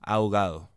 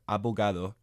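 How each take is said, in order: First: The b sound is dropped completely. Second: The b is a full stopped consonant.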